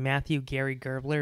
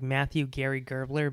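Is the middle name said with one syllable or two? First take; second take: two; two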